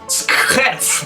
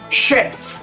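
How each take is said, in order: First: The word begins with an s and k sound. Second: The word begins with a sh sound. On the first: The speaker calls it wrong. "en noruego no se dice skjerf" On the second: The speaker calls it right. "se dice skjerf"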